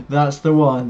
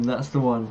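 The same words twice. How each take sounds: First: Louder, eager confirmation; excited agreement. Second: Said in the usual way. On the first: Real, not acted. Host agreeing with viewer Joe, eager and loud. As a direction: cheer it out to the chat.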